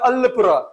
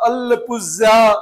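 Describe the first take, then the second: First: The final consonant is an r sound. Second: The final consonant is a z sound. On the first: The speaker calls it right. "वो लोग pronounce करते हैं अल्लेपुरा" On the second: The speaker calls it wrong. "ऐसा नहीं"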